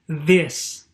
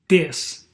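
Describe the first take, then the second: First: The first sound is a voiced th sound. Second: The first sound is not a th sound. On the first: The speaker calls it right. "You should say" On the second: The speaker calls it wrong. "do not say ... these are not correct"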